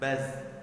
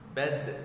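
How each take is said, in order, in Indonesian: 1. Z terakhir mengalir halus dan lembut. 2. Z terakhir berakhir dengan gema yang memantul. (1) "Biarkan dia mengalir saja. Baz dengan dengan lembut" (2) "Contoh bacaan yang salah. ... seakan-akan zalnya memantul"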